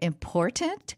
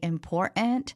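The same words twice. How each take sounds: First: The T in the middle is clearly pronounced. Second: The T in the middle is dropped. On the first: The speaker calls it right. "instead of important" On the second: The speaker calls it wrong. "people dropping the T's in the middle of words. Like now they say important"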